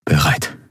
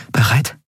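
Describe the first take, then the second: First: "Bereit" without any rise, as a statement; confirming answer. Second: "Bereit" higher, rising at the end; questioning rise. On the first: Kai confirming to Endriel, "Bereit" as a settled answer. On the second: Endriel checking with Kai before striking, "Bereit" as a rising question. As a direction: ask "Bereit" with the pitch lifting. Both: A narrator's reading.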